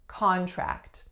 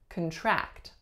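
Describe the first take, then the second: First: The stress is on the first syllable. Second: The stress is on the second syllable. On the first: It is a noun. "our first syllable was a stressed syllable" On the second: It is a verb. "the second syllable will receive stress"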